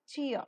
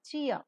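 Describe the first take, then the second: No difference in how they are said.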